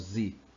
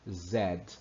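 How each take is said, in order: First: The letter is said as zee. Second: The letter is said as zed. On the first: This is the American name of the letter. "lá nos Estados Unidos ele tem um som, ele é o Z" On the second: This is the British name of the letter. "vai para a Inglaterra e é chamado de Z"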